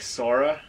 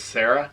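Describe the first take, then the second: First: The name is said in an unfamiliar way. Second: The name is said the familiar English way. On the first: This is how the people in the book say it. "they pronounce it like Sora" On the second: This is how the name is usually said. "one of the girls' names is Sarah"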